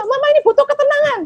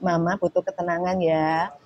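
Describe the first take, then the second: First: Angry shout. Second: Softer, gentle asking for quiet; calm request. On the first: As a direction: blow up and yell it fast. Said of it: "ini kan jadi you statement". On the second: Mother gently asking her daughter for quiet, calm soft request. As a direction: ask kindly and softly, no blame. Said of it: "Sehingga kita ngomong". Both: Shown as a demonstration.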